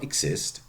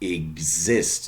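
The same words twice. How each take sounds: First: The x is said as voiceless ks. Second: The x is said as voiced gz. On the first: The speaker calls it wrong. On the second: The speaker calls it right.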